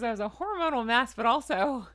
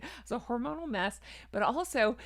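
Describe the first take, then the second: First: Odd emphasis within "a hormonal mess, but also"; quick "hormonal mess", then louder "but also"; weird emphasis. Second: Said in the usual way. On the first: Real, not acted. Vlogger recalling her pregnancy, weird emphasis. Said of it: "did I put a weird emphasis on that word". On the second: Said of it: "did I put a weird emphasis".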